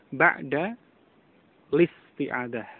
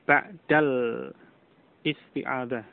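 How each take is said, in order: First: The article's vowel is dropped, linking straight on. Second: The article's vowel is pronounced before isti'adah. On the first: The speaker calls it right. "hamzah wasal tidak diucapkan" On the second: The speaker calls it wrong. "Bukan ba'dal isti'adah"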